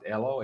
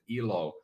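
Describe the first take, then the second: First: The first vowel is an 'eh' sound. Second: The first vowel is an 'ee' sound. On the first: It means life. "if we pronounce it Elo" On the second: It means happiness. "if we pronounce it Ilo, as some people might"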